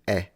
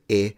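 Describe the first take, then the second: First: The vowel is said with an open quality. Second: The vowel is said with a closed quality. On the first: "and one was open" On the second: "One was closed"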